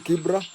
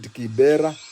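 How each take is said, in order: First: No vowel is heard between b and r. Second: An e vowel is heard between b and r. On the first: This is the original name. The speaker calls it right. "the original it was called it's called Kibra" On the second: This is how foreigners said the name. The speaker calls it wrong. "the Wazungu could not pronounce it, uh, so they called it Kibera"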